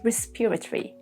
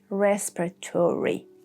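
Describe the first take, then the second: First: British accent, the o in the ending is silent. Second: American accent, the ending is said fully as tory. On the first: "the British would say respiratory, silent O" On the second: "Americans would say respiratory, tory"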